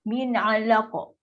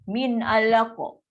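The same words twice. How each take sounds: Both takes have the same delivery.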